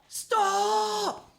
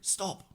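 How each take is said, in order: First: The word is screamed loudly. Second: The word is said in a whisper. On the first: The speaker is alarmed about an imminent crash. "From whisper to screaming" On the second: The speaker wanted to stay calm and not distract. "Just whispering, whispering"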